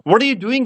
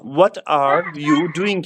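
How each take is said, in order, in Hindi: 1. यह अमेरिकी लहजे में बोला गया है, d-like t के साथ। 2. यह सामान्य, गैर-अमेरिकी लहजे में बोला गया है।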